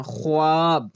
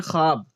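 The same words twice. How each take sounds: First: ख्वाब as written, "kho-aab"; teacher voicing the silent vao in ख्वाब; spelling pronunciation. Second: ख्वाब as short "khaab", no "w"; ख्वाब said with a silent vao; as read aloud. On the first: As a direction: draw out ख्वाब with the "w" sounded. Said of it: "ख्वाब लिखते हैं". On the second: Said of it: "लेकिन पढ़ते क्या हैं?". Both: Shown as a demonstration.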